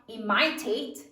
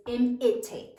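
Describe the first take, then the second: First: "imitate" with the middle i said like "eye"; long I, mispronounced. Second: "imitate" with the middle i short, as in "it". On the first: Teacher explains a spelling rule, "imitate" with a long middle I. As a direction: say "imitate" wrongly as i-MY-tate. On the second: Teacher corrects the vowel, "imitate" with a short middle I. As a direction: say "imitate" as im-it-ate. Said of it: "the short I". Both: Shown as a demonstration.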